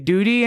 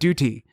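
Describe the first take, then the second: First: The t is a soft flap, sounding like doody. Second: The t is a crisp, clearly released t sound. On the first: It sounds like a childish word for poop. The speaker calls it wrong. "not say duty anymore" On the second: It means obligation, not the childish word. The speaker calls it right. "You're gonna pronounce the T properly"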